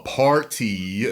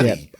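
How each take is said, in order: First: The r is pronounced clearly in the word. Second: The r is dropped, sounding like potty. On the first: The intended word is made clear. "I'm sorry" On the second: The word was misunderstood as a different word. "I worked with a guy that was from um, Massachusetts"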